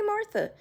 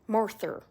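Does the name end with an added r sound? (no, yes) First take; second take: no; yes. First: The name ends in a plain vowel. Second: The name ends with an added r sound.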